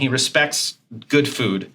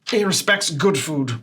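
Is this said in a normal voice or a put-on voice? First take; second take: normal; put-on. First: It is said in the speaker's ordinary voice. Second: It is said in a put-on character voice.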